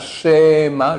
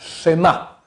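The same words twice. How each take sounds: First: The first vowel is drawn out long. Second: The first vowel is short but present. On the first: The speaker calls it wrong. "pas un schéma long" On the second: The speaker calls it right. "Le Shé, il est court, mais il est là"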